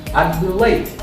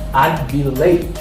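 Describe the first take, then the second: First: It is said as one contracted syllable, I'd. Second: The same.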